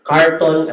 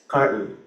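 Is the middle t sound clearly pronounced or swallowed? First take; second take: clear; swallowed. First: The t sound is fully pronounced. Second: The t sound is swallowed.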